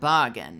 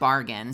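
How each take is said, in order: First: It is said in an imitated foreign accent. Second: It is said in the speaker's ordinary accent. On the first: This is how the character says it. "Shadowheart says, ... like bargain. Bar I can't I can't do accents" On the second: This is the usual way to say it. "instead of bargain"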